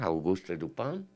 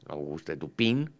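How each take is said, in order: First: The name is said with French pronunciation. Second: The name is said with Spanish pronunciation.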